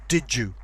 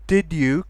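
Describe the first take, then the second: First: The d and y merge into j. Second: The d and y sounds stay separate.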